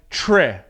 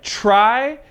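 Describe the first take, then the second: First: The vowel is a short 'ih' sound. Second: The vowel is a long 'eye' sound. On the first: "sometimes it sounds like tre" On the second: "sometimes it sounds like try"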